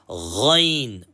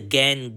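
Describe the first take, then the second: First: The letter is said heavy, with a full mouth. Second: The letter is said light, with a thin mouth. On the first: The speaker calls it right. "full mouth letters" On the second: The speaker calls it wrong. "We don't say gan"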